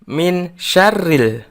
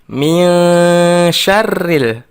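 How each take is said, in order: First: The n is pronounced clearly before the sh. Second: The n is hidden and nasalized into the sh. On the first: The speaker calls it wrong. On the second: The speaker calls it right.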